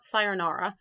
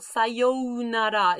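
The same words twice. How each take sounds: First: The vowel after 'say' is short. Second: The vowel after 'say' is held long. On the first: The speaker calls it wrong. "It's not sayonara" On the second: The speaker calls it right. "That means hold this a little"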